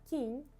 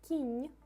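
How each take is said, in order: The two takes are said the same way.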